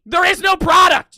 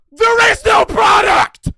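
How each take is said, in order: First: High scream punching the word no; furious shout. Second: Slow, high, full-throated scream with the weight on There; furious shout. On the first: Screaming at a chargeback viewer, stress on no. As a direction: hammer the word no in There is no product. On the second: Ranting at a refunding viewer, slow furious scream. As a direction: roar There is no product, stretching each word. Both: Real, not acted. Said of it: "Yeah, I'm screaming".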